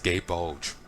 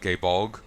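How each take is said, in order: First: The second word ends with a soft j sound. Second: The second word ends with a hard g sound. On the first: This is how others pronounced the name. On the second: This is the pronunciation the speaker chooses.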